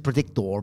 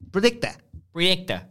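First: The word ends with an 'or' sound. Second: The word ends with an open 'ah' sound. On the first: "But his is predictor because he's an idiot" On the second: "they end words that end in or with like ah"

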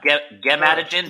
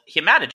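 First: The word begins with a G sound. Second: The word begins with an H sound. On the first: The speaker calls it right. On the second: The speaker calls it wrong.

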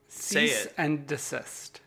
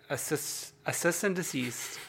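First: The phrase sounds like 'cease and desist'. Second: The phrase sounds like 'assist and deceased'. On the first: The speaker calls it right. "No, I could say it" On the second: The speaker calls it wrong. "we can't say that correctly anymore"

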